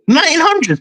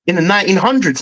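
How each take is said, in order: First: Pitched up high in disbelief on hundreds; incredulous echo. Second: Said in the usual way. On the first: Shown as a demonstration. Fan repeating the stat to his co-host, disbelieving. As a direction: repeat it back like you can't believe it. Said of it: "Are you fucking dumb". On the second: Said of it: "what's that all about".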